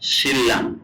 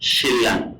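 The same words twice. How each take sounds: First: The middle is pronounced as a double l. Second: The same.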